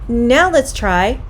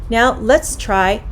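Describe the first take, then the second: Both takes have the same delivery.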